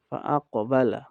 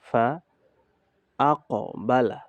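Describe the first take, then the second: First: The syllables are joined in one smooth flow. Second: The syllables are said separately with breaks.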